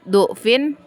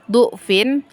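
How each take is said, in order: First: The first vowel is a 'u' sound. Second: The same.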